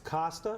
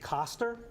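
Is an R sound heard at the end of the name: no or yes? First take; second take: no; yes. First: The name ends without an R sound. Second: The name ends with an R sound. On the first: "It's Costa with a silent R" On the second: "or you can say Coster"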